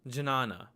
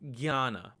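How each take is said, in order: First: The word begins with a j-n sound. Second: The word begins with a g-y sound. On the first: This is how some Sanskrit teachers read it. "Some Sanskrit teachers will actually read this as jna" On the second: This is how it is said in Hindi and Bengali. "this letter is pronounced as gya"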